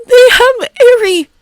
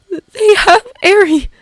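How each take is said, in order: First: Louder, higher panicked wail; panicked cry. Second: High, slow panicked wail; panicked cry. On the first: Canary panicking over Eri, wailing louder. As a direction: repeat it with rising horror. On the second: Canary panicking over Eri, wailing. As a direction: cry out in horror. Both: Acted.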